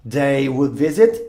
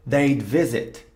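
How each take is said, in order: First: "They would visit" with would said in full; full uncontracted "They would visit"; full form. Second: "they'd visit" with they'd as one syllable, theyd; contracted "they'd visit"; contracted form. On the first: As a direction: keep "would" separate, wud. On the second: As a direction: merge would into a d sound, "they'd". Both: Shown as a demonstration. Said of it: "de forma contraída".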